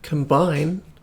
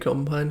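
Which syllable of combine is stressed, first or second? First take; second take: second; first. First: The stress is on the second syllable. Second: The stress is on the first syllable. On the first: It means joining things together. The speaker calls it wrong. "The stress is on bind when you're combining things" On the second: It names the game faction, like the farm machine. The speaker calls it right. "the stress is on com, like a combine harvester"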